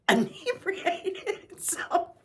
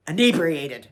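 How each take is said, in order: First: Inebriated stretched slowly and high through a laugh; real giggle over Inebriated. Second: Said in the usual way. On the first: Real, not acted. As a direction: drag out Inebriated while laughing.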